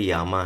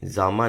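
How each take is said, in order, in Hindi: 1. शब्द की शुरुआत y की आवाज़ से होती है। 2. शब्द की शुरुआत j की आवाज़ से होती है। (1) "स्लोवेनियन लैंग्वेज में ज को य ऐसा कुछ प्रोनाउंस है" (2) "ये जामा नहीं होकर के"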